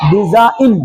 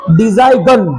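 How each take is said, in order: First: "डिजाइन" said di-za-in, no g; silent G. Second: "डिजाइन" said di-zai-gun, with a hard g; G wrongly sounded. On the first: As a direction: drop the g in "डिजाइन", ending on a plain n. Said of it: "उच्चारण नहीं होगा". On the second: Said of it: "डिजाइन नहीं पढ़ेंगे". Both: Shown as a demonstration.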